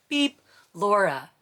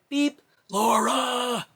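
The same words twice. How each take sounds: First: Imitated beeper. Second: Higher, slower, louder mock pager call; slow drawn-out beep. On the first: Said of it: "the first time". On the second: Mother mimicking the midwife's pager on the third call, drawn out. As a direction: drag out the beep and the name, exaggerated. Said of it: "Third time".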